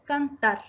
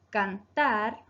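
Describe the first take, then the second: First: Said in the usual way. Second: "Cantar" with a long, drawn-out "tar"; teacher showing the stressed syllable "tar" in "Cantar"; stress on last syllable. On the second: Shown as a demonstration. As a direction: stretch the final "tar" of "Cantar". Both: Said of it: "se acentúa en la última sílaba".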